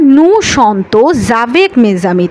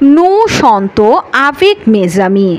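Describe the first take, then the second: First: A consonant sound links the words together. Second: The words stay separate with no linking consonant. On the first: The speaker calls it wrong. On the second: The speaker calls it right.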